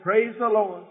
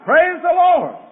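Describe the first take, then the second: First: It is said at a normal, quieter volume. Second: It is said louder.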